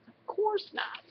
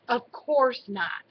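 First: Small, high squeak, kept soft; squeaky voice. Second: Said in the usual way. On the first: A narrator's reading. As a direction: squeak it out softly, pitched way up. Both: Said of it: "Sam said in a squeaky voice".

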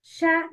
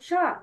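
First: Sha with a light, front "a" as in "cat"; light shin. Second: Sha with a dark, back "aa"; heavy shin. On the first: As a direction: say Sha thinly, not heavy. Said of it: "Shin has light sound". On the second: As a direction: say sha heavily, as the mistake. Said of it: "not heavy". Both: Shown as a demonstration.

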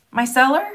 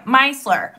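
First: "Micellar" with the stress on the middle, "cellar"; tentative "Micellar", second syllable stressed. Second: "Micellar" with the stress on the first syllable, "MY"; "Micellar" as MY-sler, front-stressed. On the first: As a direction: say "Micellar" questioningly, leaning on "cellar", rising at the end. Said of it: "Is the emphasis on cellar?". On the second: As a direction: hit "MY" in "Micellar" and let the rest fall. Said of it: "Emphasis on the my". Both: Shown as a demonstration.

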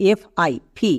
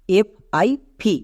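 The two takes are said the same way.

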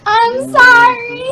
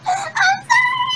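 First: Slow, high apology through laughter; laughing apology. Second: Very high, slow squeaky sorry; squeaky apology. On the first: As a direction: apologize while giggling. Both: Real, not acted.

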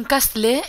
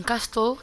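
First: "Castle" read Spanish-style, ending in a long "lé"; "Castle" with the final e sounded. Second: "Castle" said "kás-to", no l sound; "Castle" ending in a plain o; Castle as "CASTO". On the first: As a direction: say "Castle" as "kast-leee". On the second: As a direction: turn "Castle" into a Spanish "casto". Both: Shown as a demonstration. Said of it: "como se quiera pronunciar".

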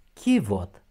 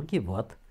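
First: Chivot stressed on i, louder first syllable; correct stress on Chivot. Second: Chivot wrongly stressed on o. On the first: Teacher models the right accent, Chivot stressed first. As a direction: say 'CHI-vot' for Chivot. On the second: Teacher shows the mistake, chivot stressed at the end. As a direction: say 'chi-VOT' for chivot. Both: Shown as a demonstration. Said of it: "Nu chivot".

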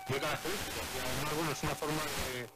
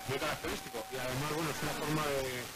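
Both takes have the same delivery.

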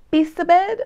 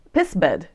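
First: High, loud "pissabed" as "pee-sa-bed"; bouncy Italian "pissabed"; Italian-ish reading. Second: "pissbed" clipped to two syllables "piss-bed"; unsure Dutch "pissbed"; Dutch guess. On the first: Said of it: "that's more Italian". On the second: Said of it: "in Dutch you would just say". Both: Shown as a demonstration.

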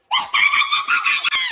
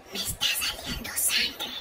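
First: High-pitched hysterical yell; panicked scream. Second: Slow, hushed whisper; confidential whisper. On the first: Brother announces sister's secret, panicked scream. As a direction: blurt it out in a hammed-up shriek. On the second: Sister confides in brother at school, whispered. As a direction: whisper it like a secret. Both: Acted.

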